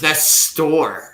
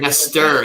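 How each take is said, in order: First: The name is said with a rolled Spanish R. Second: The name is said with a plain English R. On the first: The speaker calls it right. "Gonna roll the R's" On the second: The speaker calls it wrong. "Not even Nestor"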